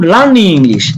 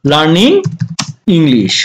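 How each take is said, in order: First: Said in the usual way. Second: "learning", a clear pause, then "English" falling low; word by word. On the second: Shown as a demonstration. Teacher repeating the phrase for learners, word by word. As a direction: separate "learning" and "English", each on its own.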